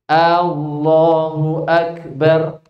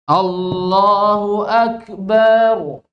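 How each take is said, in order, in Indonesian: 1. Vokal pembuka dipanjangkan. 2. Vokal pada suku kata terakhir dipanjangkan. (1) "Allahnya A-nya panjang" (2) "tambah panjang baknya"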